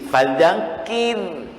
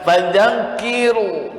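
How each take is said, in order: First: The word ends on a light, unvoweled r. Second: The word ends with an added u vowel. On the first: The speaker calls it right. "roh sukun itu dibaca tarkik tipis" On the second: The speaker calls it wrong. "jangan fadzakiru, nah jangan gitu"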